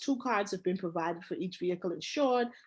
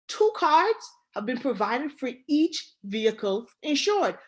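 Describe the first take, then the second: First: It is read in a flat, monotone voice. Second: It is read with lively, varied inflection. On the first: The speaker calls it wrong. "don't read it like this" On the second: The speaker calls it right. "the inflection in my voice like gives it a whole dynamic"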